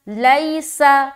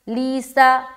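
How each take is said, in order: First: The first vowel glides from 'a' to 'i'. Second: The first vowel is a long 'ee' sound. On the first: The speaker calls it right. "हमें पढ़ना है लईसा" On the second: The speaker calls it wrong. "बहुत सारे लोग ऐसा भी पढ़ते"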